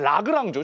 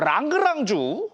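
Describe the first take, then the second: First: The name is said plainly, without extra rolling. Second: The name is said with an exaggerated rolled sound. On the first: The speaker calls it right. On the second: The speaker calls it wrong.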